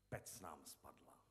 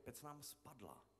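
First: The word pec carries the emphasis. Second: The word spadla carries the emphasis. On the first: This time it is the oven that fell, after other things. "Ty důrazy, jako Pec nám spadla. To znamená, zřejmě se ocitáme v příběhu lidí, kterým furt něco padá" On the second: The cracked oven finally did fall down. "to naznačuje, že ta pec už jako měla v sobě různý ty pukliny"

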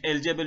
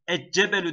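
First: The L is clearly sounded before the j. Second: The L merges into a doubled j sound. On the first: The speaker calls it right. "el cebelü yerine" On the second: The speaker calls it wrong. "Eccebelü demek el cebelü yerine zorlar"

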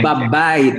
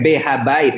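First: The preposition and article merge into one syllable. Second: The preposition and article are said as separate syllables. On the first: The speaker calls it right. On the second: The speaker calls it wrong. "Bukan beha bait"

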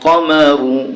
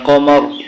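First: The word ends with a short u vowel. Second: The word ends on the r consonant. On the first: The reading continues without stopping. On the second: The reader stops at the end of the verse.

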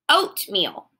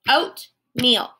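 First: The word is said smoothly without a break. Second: The word is split with a pause between syllables.

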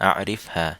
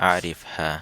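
The two takes are said the same way.

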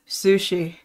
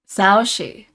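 First: The first syllable sounds like 'soo'. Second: The first syllable sounds like 'sao'. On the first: The speaker calls it wrong. "I've been saying his name Sushi for this whole time" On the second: The speaker calls it right. "It says online Saoshi"

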